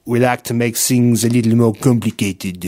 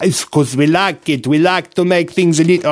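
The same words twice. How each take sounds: First: Lower, put-on French accent. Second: A light mock Italian accent. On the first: Host redoes the line for his co-host in a mock French accent. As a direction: say it like a Frenchman would, tongue in cheek. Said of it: "let me do the French one". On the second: Host slips into a light mock Italian accent by mistake. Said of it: "oh, I don't know why I'm doing Italian". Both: Shown as a demonstration.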